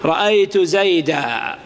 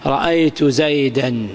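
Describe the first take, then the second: First: زيدا ending in long "-aa", no n; pausal alif. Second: زيدًا ending in a clear "-an"; tanween pronounced. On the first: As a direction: stop on زيدا as a drawn-out "zaydaa". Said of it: "عندما تقف عليه ماذا تقول؟". (الوقف على زيدا بألف ممدودة دون نون) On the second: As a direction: sound the final n of زيدًا, "zaydan". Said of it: "التنوين جاء بعد إيش؟". (نطق التنوين في زيدًا بنون ظاهرة) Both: Shown as a demonstration.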